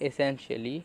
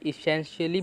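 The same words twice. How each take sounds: First: "essentially" opening on an ay sound, ay-SEN-shuh-lee; starting with "e". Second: "essentially" opening on a short i, i-SEN-shuh-lee; starting with "i". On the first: Teacher showing learners the other variant, "essentially" begun with an ए sound. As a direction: say "essentially" with ए as the first vowel. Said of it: "ए भी pronounce करते हैं". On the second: Teacher showing learners a common variant, "essentially" begun with an i sound. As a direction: say "essentially" with "ih" as the first vowel. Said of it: "कुछ लोग इसे essentially भी बोलते हैं".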